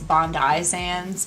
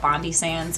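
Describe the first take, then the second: First: The name is said in the Australian way. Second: The name is said in a non-Australian way. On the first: The speaker calls it right. "Apparently it's" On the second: The speaker calls it wrong. "I always mispronounce the name. I call it"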